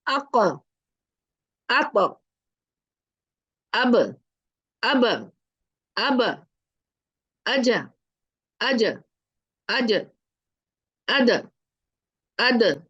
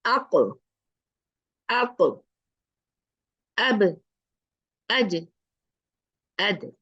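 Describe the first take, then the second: First: अक said with a short vowel added after the final letter, like अका; the common mistake: release अब with a trailing vowel; wrong way with fatha. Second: अक ends cleanly on the stopped consonant, no vowel after; correct sukoon. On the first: Teacher shows students the wrong अक, अब, अद ending in a vowel. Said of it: "गलती कैसे पढ़ते हैं?". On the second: Teacher shows students the right अक, अब, अद with sukoon. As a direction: stop अब, अद sharply, no vowel after. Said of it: "सही कैसे पढ़ेंगे?". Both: Shown as a demonstration.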